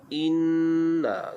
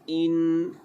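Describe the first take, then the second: First: The n is held and followed by a vowel. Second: The word is clipped short after the n. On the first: The speaker calls it right. "bunyi inna" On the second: The speaker calls it wrong. "Jangan bunyi in"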